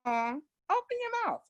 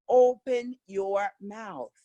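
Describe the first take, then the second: First: Higher, slow, muffled "Open your mouth" with mouth shut; closed-mouth mumble. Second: Slow, clearly opened "Open your mouth"; wide-open articulation. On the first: Retold or imitated. Teacher mocking a mumble, then showing it open. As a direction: say it mumbling through closed lips. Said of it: "talking like this". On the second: Shown as a demonstration. Teacher showing students the clear open-mouth version. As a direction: stretch every word with the mouth wide.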